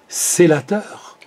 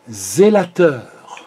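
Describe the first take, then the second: First: The first consonant is a voiceless s sound. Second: The first consonant is a voiced z sound. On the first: "le ze va devenir se" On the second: "on va le transformer en ze"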